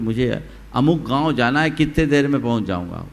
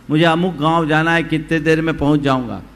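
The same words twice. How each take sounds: First: It is called out at ordinary volume. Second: It is called out somewhat louder.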